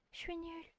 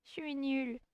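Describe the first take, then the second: First: Higher and much softer, timid; tiny high voice of a bashful schoolgirl; shy girl voice. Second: Said in the usual way. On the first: Shown as a demonstration. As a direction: say it like a shy girl hiding away. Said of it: "j'ai oublié comment faire sa voix". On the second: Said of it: "je sais plus comment faire sa voix".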